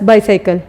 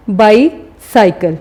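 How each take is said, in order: First: Said in the usual way. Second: bicycle slowly split, pause after बाई; syllable break. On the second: Shown as a demonstration. Teacher showing the break in the word, bicycle in two slow parts. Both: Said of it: "इसमें देखें break आ रहा है".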